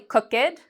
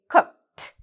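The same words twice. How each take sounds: First: The ending is an extra separate syllable. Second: The ending is a short t sound. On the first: The speaker calls it wrong. "we do not say cooked" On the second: The speaker calls it right. "the ed becomes a T sound"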